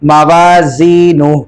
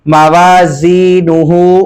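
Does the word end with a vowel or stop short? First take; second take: stop short; vowel. First: The word stops short without the final syllable. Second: The word ends with a full vowel ending. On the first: The reader stops at this word. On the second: The reading continues on without a stop.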